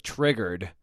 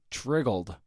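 First: Said in the usual way. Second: "triggled" with an L in place of the R; mispronounced word. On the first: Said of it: "instead of". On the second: Shown as a demonstration. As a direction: say "triggled", ending in -gld. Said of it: "And I just said "triggled".

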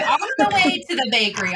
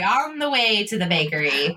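First: Rattled off higher and fast; fast repeat. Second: Said in the usual way. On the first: Shown as a demonstration. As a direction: fire it off quickly.

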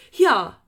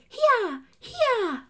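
First: Loud, full call to a horse; normal horse call. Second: Much higher, louder, squeaky mock call; mock the narrator's thin squeal at the horse; silly narrator call. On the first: Retold or imitated. Rider urging a horse on, loud plain call. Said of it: "like a normal person would". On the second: Imitating the audiobook narrator spurring a horse, high and squeaky. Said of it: "she goes".

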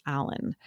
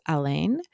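First: "Alan" said AL-un; first-syllable stress. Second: "Alain" said uh-LANE; second-syllable stress. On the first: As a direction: hit the first syllable of "Alan", weak ending. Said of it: "being pronounced as Alan". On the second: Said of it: "he pronounces her detective as". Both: Shown as a demonstration.

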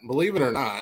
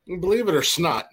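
First: Said in the usual way. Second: Believe it or "snot", with "snot" in place of "not"; playful "snot" pun, "snot" punched high. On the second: Pretend.

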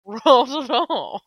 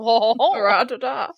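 First: Ratata drawn out slowly with laugh. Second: Slow Ratata, syllables stretched evenly; Ratata said slowly. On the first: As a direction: say Ratata slowly, each syllable even. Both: Shown as a demonstration. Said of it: "refer to him as Ratata".

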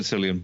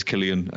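First: "Cillian" said with an initial s; soft C. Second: "Cillian" said with an initial k; hard C. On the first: Podcaster admitting his habit, "Cillian" with soft s. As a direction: say "Cillian" as SIL-ee-an. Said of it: "I've always said Cillian". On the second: Podcaster correcting to the Irish name, "Cillian" with hard k. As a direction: say "Cillian" as KIL-ee-an. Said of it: "pretty sure because he's Irish". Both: Shown as a demonstration.

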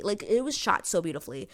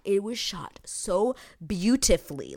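First: Said in the usual way. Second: Whispered, slow awe. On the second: Real, not acted. Praising the filming to viewers, whispered awe. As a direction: breathe it out in awe.

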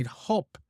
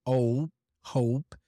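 First: HOP with a short vowel, no glide; missing diphthong. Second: HOPE with a long gliding OH vowel; full diphthong. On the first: Teacher showing the mistaken word, HOP with short vowel. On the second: Teacher correcting learner's vowel, HOPE with full diphthong. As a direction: draw out the "oh" glide in "hope". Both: Shown as a demonstration. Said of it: "pronounce the diphthong".

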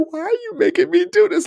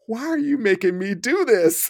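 First: High, whiny, tearful plea; mock near-crying plea. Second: Pleading client. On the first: Exhausted client on the ground pleading with his trainer, near tears. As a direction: whimper it like he's about to cry. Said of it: "he's about to start crying". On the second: Retold or imitated. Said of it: "he just said".

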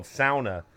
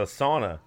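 First: Sauna said Finnish way as SOW-na; Finnish pronunciation. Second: Said in the usual way. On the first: Retold or imitated. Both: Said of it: "they pronounce it different".

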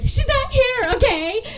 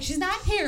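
First: Very high, loud frantic imitation; mock breakdown. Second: Retold first answer, strained but held in; mildly frazzled. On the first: Studio owner losing it at the creditor, mock breakdown. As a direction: snap and shriek it, hammed-up. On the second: Studio owner answering the creditor about Celeste, mildly frazzled. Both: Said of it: "has this total little mental breakdown".

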